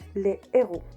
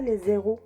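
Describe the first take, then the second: First: No z sound links the article to the noun. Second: A z sound links the article to the noun. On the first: The speaker calls it right. "ça se dit les héros" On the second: The speaker calls it wrong. "ça se dit pas les zéros"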